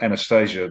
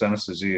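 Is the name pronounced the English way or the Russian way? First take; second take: English; Russian. First: The name is said with an English pronunciation. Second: The name is said with a Russian pronunciation. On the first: "the way we say it" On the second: "if you speak it in the Russian"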